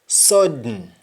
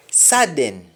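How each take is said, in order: First: Sung, SUDDEN as "sod-n"; sung, Jamaican round O in SUDDEN; Jamaican humming. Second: SUDDEN as "sa-den"; full last vowel in SUDDEN; English-style open first vowel in SUDDEN; English pronunciation. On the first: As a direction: hum the end of SUDDEN. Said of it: "That is harming". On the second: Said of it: "we don't say happen". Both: Shown as a demonstration.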